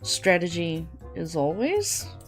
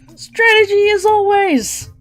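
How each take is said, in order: First: It is said flatly, without feeling. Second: It is said loudly, with strong feeling.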